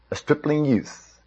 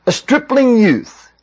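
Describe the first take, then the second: First: Soft, hushed letdown; deflated. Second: High, slow, drawn-out scoff; scornful disbelief. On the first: A narrator's reading. Narrator revealing the hoped-for champion to Saul, quietly deflated. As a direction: let it sink quietly, as an anticlimax. King sees the boy, let down. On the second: Retold or imitated. Soldiers scoffing at the shepherd boy, scornfully incredulous. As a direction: voice the men's mock amazement, pitched high. Men scoffing at David's offer.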